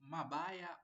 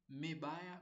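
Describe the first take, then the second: First: An a vowel is heard after the m. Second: An e vowel is heard after the m. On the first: "So you don't say mabaya" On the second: "or mebaya"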